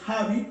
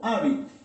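First: The initial h is breathed out audibly. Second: The initial h is dropped entirely. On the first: "tengo que aspirarla" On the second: "tengo que simplemente ignorarla"

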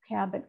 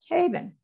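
First: The first vowel is a short 'a' sound. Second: The first vowel is a long 'ay' sound. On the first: It is recognized as a known word. The speaker calls it right. "let's go from long to short" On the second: It does not sound like a known word. The speaker calls it wrong. "You said a, long vowel a"

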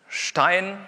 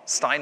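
First: The word begins with an 'sh' sound. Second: The word begins with a plain 's' sound.

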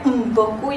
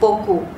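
First: The stress falls on the initial nasal m. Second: The stress falls on the consonant after m. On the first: The speaker calls it wrong. "The stress will not be on the first. You don't say like mpoku" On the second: The speaker calls it right. "the stress will always be on the consonant following the m"

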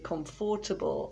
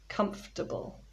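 First: The word is said with four syllables. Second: The word is said with three syllables. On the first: The speaker calls it wrong. "People often say comfortable" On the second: The speaker calls it right. "but actually there are three syllables"

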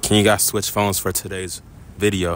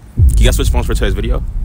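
First: The question is spoken more slowly. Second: The question is spoken at a normal pace.

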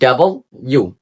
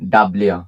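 First: The letter name has three clear syllables. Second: The letter name is squeezed into two syllables. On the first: The speaker calls it right. "এটা হবে ডাবল ইউ" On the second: The speaker calls it wrong. "এটাকে আমরা সবাই বলি"

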